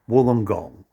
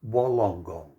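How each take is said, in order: First: The syllables are said in a shortened, reduced form. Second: Every syllable is said the way it is spelled. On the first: "But we pronounce it Wollongong" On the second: "you notice the spelling? It's Wollongong"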